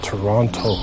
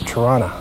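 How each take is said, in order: First: Toronto is said with an American pronunciation. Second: Toronto is said with the local pronunciation. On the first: This is how people in the States say it. The speaker calls it wrong. "People in the States call it Toronto" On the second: This is how the name really goes. The speaker calls it right. "and it's Toronto"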